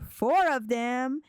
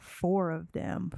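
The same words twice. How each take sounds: First: Higher, drawn-out disbelieving question; taken aback, pitched up; incredulous repeat. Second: Said in the usual way. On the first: Real, not acted. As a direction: echo it in disbelief, stretching it out. Player reacts to his wish.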